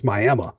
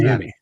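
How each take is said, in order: First: The name is said the Oklahoma way. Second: The name is said the usual way. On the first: This is how it is said in Oklahoma. "In Oklahoma, it's Miami" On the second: This is how it is said elsewhere.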